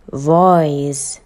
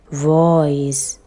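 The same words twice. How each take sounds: The two takes are said the same way.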